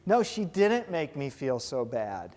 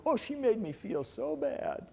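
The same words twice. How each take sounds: First: Slow, deliberate, leaning on "No"; firm correction. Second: Higher, mock whiny complaint; mock self-pity. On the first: Shown as a demonstration. Teacher correcting the victim's complaint, slow and firm. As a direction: set the record straight calmly. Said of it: "Nuh-uh". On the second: Teacher mimicking someone blaming another for feelings, mock whiny. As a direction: lightly play the hurt victim blaming her. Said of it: "We buy into the illusion that feeling".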